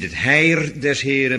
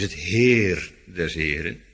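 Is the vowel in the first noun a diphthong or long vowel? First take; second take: diphthong; long vowel. First: The first noun has a gliding diphthong. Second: The first noun has a long ee vowel. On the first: The speaker calls it wrong. "En het is niet" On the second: The speaker calls it right. "maar het is"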